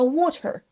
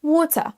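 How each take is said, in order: First: Water with a pronounced hard ending; clumsy learner's water; wrong pronunciation. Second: Higher British water ending on tuh; British waw-tuh for water; UK accent, schwa ending. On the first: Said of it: "On ne dit pas". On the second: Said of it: "On s'arrête sur un E". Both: Shown as a demonstration.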